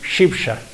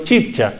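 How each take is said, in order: First: The word begins with an 'sh' sound. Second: The word begins with a 'ch' sound. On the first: This is the original form used when speaking the native language. "Hablando en Chipcha voy a decir Shipsha" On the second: This is the borrowed form used when speaking Spanish. "hablando en español digo Chipcha"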